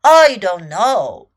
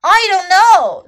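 First: Deep, loud, drawn-out lion voice; dismissive lion. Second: High, very loud chimp voice; exasperated chimp. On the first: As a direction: say it low and slow, with weight. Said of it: "said Lion". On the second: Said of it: "said Chimp". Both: A narrator's reading.

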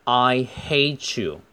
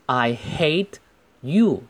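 First: HATE YOU run together with a ch sound; linked T and Y. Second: HATE and YOU said separately, with a gap between; unlinked words. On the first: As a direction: slowly link HATE into YOU as "hay-chew". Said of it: "T跟Y可以连在一起读成ch". (HATE YOU 连读，T和Y读成ch) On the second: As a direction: finish the T in HATE, pause, then say YOU. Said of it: "的连读". (HATE 和 YOU 分开读，不连读) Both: Shown as a demonstration.

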